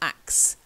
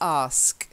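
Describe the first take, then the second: First: The word ends with a k then s sound. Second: The word ends with an s then k sound. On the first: The speaker calls it wrong. "not axe" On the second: The speaker calls it right. "it's ask or ask"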